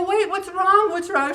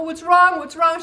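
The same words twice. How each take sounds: First: Put-on higher, worried question to a child; concerned asking. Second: High and louder, more urgent; urgent asking. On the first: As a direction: ask gently but alarmed. Finding a sobbing child. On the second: Retold or imitated. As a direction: press the child for an answer. Child still inconsolable.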